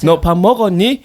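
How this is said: It is said in an imitation of Seoul speech. The speaker believes they are talking like a Seoulite. "그러면 서울말이라고 생각하는 거야"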